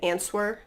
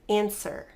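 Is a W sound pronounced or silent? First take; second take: pronounced; silent. First: A W sound is pronounced after the S. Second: The W is silent, no W sound. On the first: The speaker calls it wrong. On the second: The speaker calls it right.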